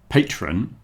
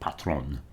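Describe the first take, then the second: First: It is pronounced with English sounds. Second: It is pronounced with French sounds. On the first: "that's our pronunciation of that word" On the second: "a French word that was patron"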